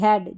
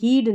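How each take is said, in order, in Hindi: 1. स्वर एक छोटी 'e' ध्वनि है। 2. स्वर एक लंबी 'ee' ध्वनि है। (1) "हैड जैसे शब्द अपवाद है" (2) "हीड नहीं"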